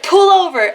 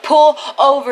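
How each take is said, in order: First: High, loud yell of pull over; retold panicked shout. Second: Loud, firm pull over; retold loud demand. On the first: Girl in the back seat yelling at the driver to stop, loud panicked shout. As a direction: bark the order at the driver in a panic. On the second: Girl in the back seat insisting the driver stop, loud firm demand. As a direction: insist on it, louder.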